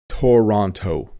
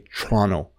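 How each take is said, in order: First: The second t is a clear t sound. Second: The word is squashed, the second t nearly gone. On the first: "If you don't know how to pronounce this, you might say Toronto" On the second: "native Ontario English speakers really mush it down"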